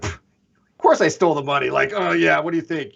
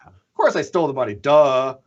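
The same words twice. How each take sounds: First: Scoffing mock confession; mild sarcastic scoff. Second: Quick, flippant "Of course I stole the money, duh"; sarcastic. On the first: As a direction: brush it off with sarcasm. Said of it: "sarcastically trying to make it sound like". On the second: Retold or imitated. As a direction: toss it off like it's obvious. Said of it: "because he's very sarcastic".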